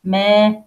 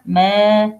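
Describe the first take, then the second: Both takes have the same delivery.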